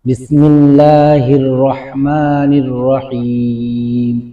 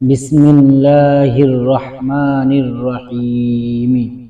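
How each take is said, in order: First: The last word ends on a consonant. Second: The last word ends with a short vowel. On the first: The reader stops at the end. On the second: The reading continues without stopping.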